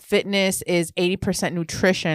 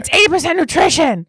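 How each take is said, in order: First: It is said at normal volume. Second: It is said loudly.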